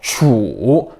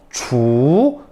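First: The pitch dips low and then rises. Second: The pitch rises from mid to high. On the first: "삼성" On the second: "이성"

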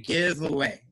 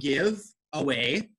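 First: The two words run together without a break. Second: The two words are said separately.

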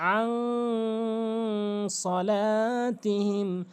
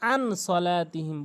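First: The n of 'an' is hidden and nasalized. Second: The n of 'an' is a clear n. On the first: The speaker calls it right. "এখানে ইকফা গুন্না করতে হবে, নাকের ভিতরে নিয়ে পড়তে হবে।" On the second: The speaker calls it wrong. "এখানে অধিকাংশ লোক ভুল করে আন সলাতিহিম বলে।"

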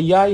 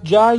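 First: It begins with a 'y' sound, Iraqi dialect style. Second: It begins with a 'j' sound.

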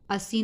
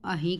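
First: The middle consonant is an s sound. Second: The middle consonant is an h sound.

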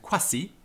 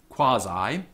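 First: It uses the restored classical pronunciation of Latin. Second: It uses the traditional English pronunciation of Latin. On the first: "in the restored classical" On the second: "in the English pronunciation of Latin"

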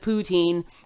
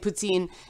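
First: It is said with a non-Canadian pronunciation. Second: It is said with a Canadian pronunciation. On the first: "instead of poutine" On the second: "the same way we say poutine"

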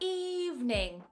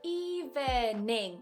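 First: The word is said with two syllables. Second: The word is said with three syllables.

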